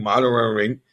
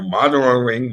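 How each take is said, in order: First: "mother and ring" said again as "mudda an ring"; teasing pronunciation. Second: "mother and ring" said as "mudda an ring"; teasing pronunciation. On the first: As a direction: repeat the tease "mother and ring" in the island accent. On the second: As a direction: tease the words "mother and ring" in a dropped-r island accent. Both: Shown as a demonstration. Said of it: "I'll tease you on some words".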